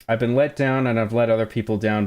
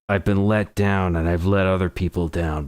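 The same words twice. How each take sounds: First: It is read in the speaker's normal voice. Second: It is read in a gritty put-on voice.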